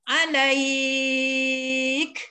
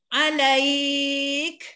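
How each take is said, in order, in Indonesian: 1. Vokal tengah dibunyikan sangat panjang. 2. Vokal tengah dibunyikan agak panjang. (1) "enam harakat macam mana?" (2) "empat harakat pula"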